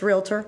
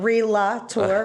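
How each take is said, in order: First: No extra vowel is inserted after the L. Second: An extra vowel is inserted after the L. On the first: The speaker calls it right. "And it's Realtor" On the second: The speaker calls it wrong. "It's not Relator"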